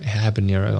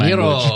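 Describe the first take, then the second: First: It is said with a plain English accent. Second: It is said with a Mexican Spanish accent. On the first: "I'll pronounce that like such a person" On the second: "in a Mexican, way"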